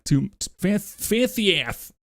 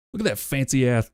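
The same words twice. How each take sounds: First: "fancy ass" said slowly and higher, "ass" lisped to "ath"; drawn-out lisped "fancy ass" with "ath". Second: "fancy ass" said with a lisp, "ass" as "ath". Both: Real, not acted. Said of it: "I have a lisp all of a sudden".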